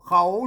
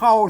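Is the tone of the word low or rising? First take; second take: rising; low. First: The word is said with a rising tone. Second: The word is said with a low tone. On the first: "เสียงจัตวา" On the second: "เสียงเอก"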